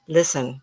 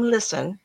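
First: Gentle calming voice. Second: Said in the usual way. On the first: Shown as a demonstration. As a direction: say Listen kindly, to get attention. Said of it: "That's how I want you to deal with these ghosts". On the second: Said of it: "Listen, t-, look at me".

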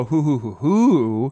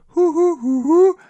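First: Said in the usual way. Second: High loud hoots; owl call. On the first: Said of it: "It doesn't go". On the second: Retold or imitated. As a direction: hoot high like the owl starting. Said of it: "it starts to go".

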